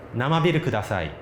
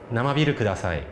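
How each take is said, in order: Both takes have the same delivery.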